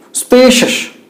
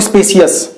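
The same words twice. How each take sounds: First: "spacious" said as spay-shus; correct pronunciation. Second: "spacious" said as spay-si-us; the wrong "spacious" split into si-us; wrong pronunciation. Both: Shown as a demonstration. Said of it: "not spacious".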